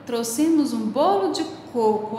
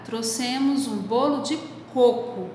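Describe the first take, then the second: First: Exclaiming. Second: Said in the usual way. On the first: Shown as a demonstration. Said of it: "com ponto de exclamação também". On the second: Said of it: "Você pode pôr o ponto final".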